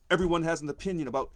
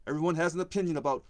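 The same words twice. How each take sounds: The two takes are said the same way.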